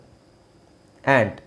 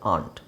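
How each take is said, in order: First: It has a flat front vowel, like 'ant'. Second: It has a long open back vowel, 'ahnt'. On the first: "American ಇಂಗ್ಲೀಷಲ್ಲಿ ಆ್ಯಂಟ್ ಅಂತ ಹೇಳ್ತಾರೆ" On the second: "ಬ್ರಿಟಿಷರು ಇದನ್ನು ಆಂಟ್ ಅಂತ ಹೇಳ್ತಾರೆ"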